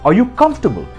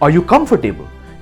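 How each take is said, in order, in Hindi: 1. 'comf' के बाद वाला o छोड़ दिया जाता है, 'for' नहीं है। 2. इसे 'comfor-table' की तरह बोला जाता है, 'for' साफ़ सुनाई देता है। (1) "स्ट्रेस करिए कंफ पे, और ओ जो है एफ और आर के बीच, उसे आपको प्रोनाउंस नहीं करना है" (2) "इसका मतलब हुआ क्या आप मेज के लिए आए हो"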